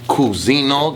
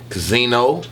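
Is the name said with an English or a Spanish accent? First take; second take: Spanish; English. First: The name is said with a Spanish-flavored accent. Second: The name is said with a plain English accent. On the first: The speaker calls it right. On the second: The speaker calls it wrong.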